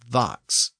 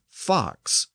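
First: The word begins with a voiced V sound. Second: The word begins with a voiceless F sound. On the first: "was often pronounced as vox" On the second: "a word like fox"

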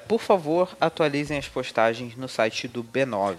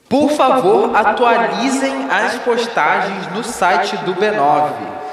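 First: It is read flatly without emphasis. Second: It is read loudly with strong emphasis.

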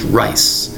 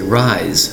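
First: The word ends with a hissing s sound. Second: The word ends with a buzzing z sound. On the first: The speaker calls it right. "the correct pronunciation is rice" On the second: The speaker calls it wrong. "some people might look at that word and say rise"

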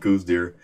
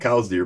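First: The first word rhymes with 'moose'. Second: The first word rhymes with 'cows'. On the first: This is the common everyday pronunciation. "90% of the people call them coos deer" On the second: This matches how the namesake said his surname. "that's the correct pronunciation"

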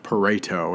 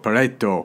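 First: It is said with a plain English accent. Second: It is said with an Italian-style accent. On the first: "I'm just a basic English speaker" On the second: "if you're Italian, you'd say it fancier like Pareto"

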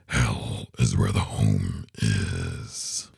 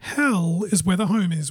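First: It is said in a creepy, spooky voice. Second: It is said in a plain, normal voice.

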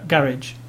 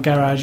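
First: Garage is said with a British accent. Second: Garage is said with an American accent.

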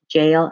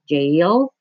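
First: The name sounds exactly like the word jail. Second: The name does not sound like the word jail. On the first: "Jail as in incarceration" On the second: "I always said Jail"

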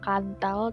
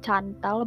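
First: The name begins with a k sound. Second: The name begins with a ch sound. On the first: "bukan Kantal" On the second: "Bukan Cantal"

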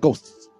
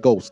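First: The final s is drawn out, ending in a sharp t. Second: The final s is short, with no sharp t. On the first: This is how they say it. "It has a long lisp and it stopped with a T" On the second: This is how they do not say it. "They don't say ghosts"

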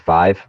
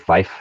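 First: The word ends with a V sound. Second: The word ends with an F sound. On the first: The speaker calls it wrong. "saying five with the V" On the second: The speaker calls it right. "we're supposed to say fife, F-I-F-E"

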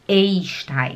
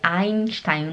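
First: The first vowel sounds like 'e' plus 'i'. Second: The first vowel sounds like 'ai'. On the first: The speaker calls it wrong. "não Einstein" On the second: The speaker calls it right. "O E e o I no alemão, ele faz som de AI. Por isso que é Einstein"

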